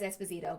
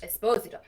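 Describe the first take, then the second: First: The name is said with American pronunciation. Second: The name is said with Italian pronunciation. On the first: The speaker calls it wrong. "in America, everybody says Esposito" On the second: The speaker calls it right. "but in Italy, they will hurt you if you do that. It's"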